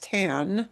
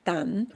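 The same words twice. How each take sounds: First: The vowel sounds like English 'tanning'. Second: The vowel is an open Spanish 'a'. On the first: The speaker calls it wrong. "never pronounce it as tan, like tanning salon" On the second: The speaker calls it right. "It's tan"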